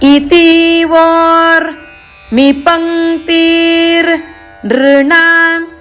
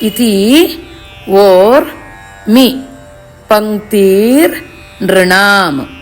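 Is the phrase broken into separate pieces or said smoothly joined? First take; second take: smoothly joined; separate pieces. First: The words flow together without breaks between pieces. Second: The words are separated with pauses between pieces. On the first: "ಕೂಡಿಸೋದನ್ನು ಹೇಳ್ತೀನಿ" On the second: "ಒಂದೊಂದನ್ನೇ ಬಿಡಿಸಿ ಬಿಡಿಸಿ ಹೇಳ್ಕೊಂಡ್ರೆ"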